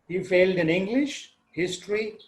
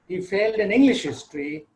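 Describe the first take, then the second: First: There is a pause between English and history. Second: English and history run together without a pause. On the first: English and history are two separate subjects. "I have taken a pause between English and history" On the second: English history is one subject, the history of England. "If I remove the pause between the first, uh, between English and history"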